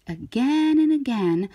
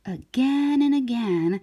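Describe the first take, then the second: No difference in how they are said.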